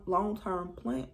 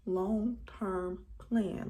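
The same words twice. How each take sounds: First: Said in the usual way. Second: Long-term plan? stretched very slow, word by word; drawn out slowly. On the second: Shown as a demonstration.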